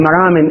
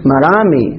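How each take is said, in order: First: "مرامي" said as maramin, ending in n; tanween ending. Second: "مرامي" ending in a long ee, no n; ee ending without tanween. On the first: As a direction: say "مرامي" with "in" in place of the long ee. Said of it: "نقول مرامي". («مرامي» بتنوين الكسر: مرامٍ) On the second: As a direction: say "مرامي" with a falling long ee at the end. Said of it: "هذا خطأ". («مرامي» بياء ممدودة دون تنوين) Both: Shown as a demonstration.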